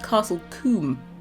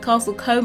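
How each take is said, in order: First: Combe is said differently from its spelling. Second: Combe is said the way it is spelled. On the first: The speaker calls it right. "It's pronounced Castle Combe" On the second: The speaker calls it wrong. "Some people pronounce it Castle Combe. It's not"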